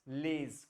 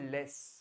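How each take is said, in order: First: The word ends with a clear z sound. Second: The word ends with a clear s sound. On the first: "लेज कुछ नहीं है" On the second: "it's no more लेस"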